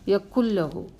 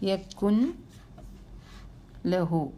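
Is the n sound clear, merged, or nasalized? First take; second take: merged; clear. First: The n disappears into a doubled l. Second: The n is pronounced clearly before the l. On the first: The speaker calls it right. "ഉച്ചരിക്കാനേ പാടില്ല, അതിനെ അവോയ്ഡ് ചെയ്യണം" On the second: The speaker calls it wrong. "നൂനെ ഒന്ന് വെളിവാക്കി നോക്കിയേ"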